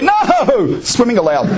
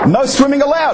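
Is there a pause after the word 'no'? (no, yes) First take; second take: yes; no. First: There is a break after the first word. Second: It is said as one phrase without a break. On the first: Swimming is permitted. "I read it differently" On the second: Swimming is forbidden. "can't you read the sign that says"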